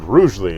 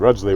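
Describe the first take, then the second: First: The name is said the modern way. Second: The name is said the old-fashioned way. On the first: This is how people say it today. "they said Rugeley as they were talking about it in the modern sense" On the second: This is how people in the historical trial said it. "all the people there were like Rudgley"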